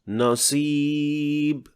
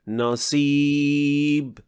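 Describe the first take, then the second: The two takes are said the same way.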